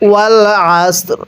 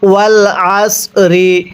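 First: It stops on a lightly pronounced final r. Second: The final r is followed by an i vowel. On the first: The reader stops at this word. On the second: The reading continues without stopping.

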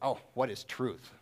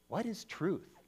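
First: It is asked in a cynical, dismissive tone. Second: It is asked as a sincere, genuine question.

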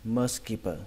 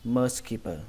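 No difference in how they are said.

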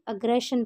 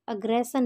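First: The consonant before -ion is a sh sound. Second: The consonant before -ion is an s sound. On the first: The speaker calls it right. "तो इसे भी अग्रेशन पढ़ेंगे" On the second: The speaker calls it wrong. "अग्रेशन नहीं पढ़ेंगे"

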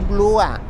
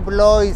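First: The vowel sounds like 'wa', as in water. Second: The vowel sounds like 'oy', as in boy. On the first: The speaker calls it right. "se dice Blua" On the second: The speaker calls it wrong. "no se dice Blois"

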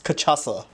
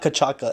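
First: The middle consonant sounds like an s. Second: The middle consonant sounds like a hard k. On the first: The speaker calls it right. "it's cachaça" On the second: The speaker calls it wrong. "It's not cachaca"

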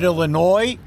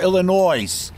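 First: The final S is silent. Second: The final S is pronounced. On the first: "a silent S" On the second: "a loud S"

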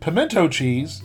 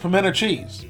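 First: It is said in a Northern pronunciation. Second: It is said in a Southern pronunciation.

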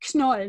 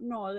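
First: The name is pronounced the German way. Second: The name is pronounced the English way. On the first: The speaker calls it right. "It's actually Knoll, It's a German word with a different pronunciation" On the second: The speaker calls it wrong. "not Knoll"

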